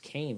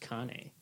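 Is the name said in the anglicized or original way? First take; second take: anglicized; original. First: The name is said in an anglicized way. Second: The name is said in its original way. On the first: This is how other people say the name. The speaker calls it wrong. "everyone says Kane" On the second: This is how the family says the name. The speaker calls it right. "but my last name is Kane"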